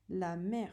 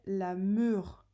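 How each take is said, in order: First: The vowel is an open 'è' sound. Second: The vowel is a rounded 'eu' sound. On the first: The speaker calls it right. "grâce au R, ça fait le son est" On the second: The speaker calls it wrong. "sinon on dirait la meur"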